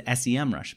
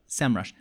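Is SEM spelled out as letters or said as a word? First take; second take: letters; word. First: SEM is spelled out as separate letters. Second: SEM is said as a single word. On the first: The name stands for search engine marketing. The speaker calls it wrong. "I was pronouncing it in the early days of my ads for them just a few months ago as SEMrush" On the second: The brand covers more than search engine marketing. The speaker calls it right. "but SEMrush"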